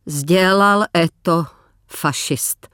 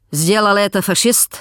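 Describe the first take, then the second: First: Slow, careful Russian, last word fading to a whisper. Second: Russian officer. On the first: Katerina answers the officer in Russian, slow and fading. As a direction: answer in halting Russian, the end barely breathed. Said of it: "odpověděla Kateřina rusky". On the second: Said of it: "zeptal se důstojník". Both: Acted.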